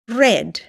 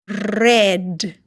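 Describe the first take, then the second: First: The word is said fast. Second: The word is said slowly.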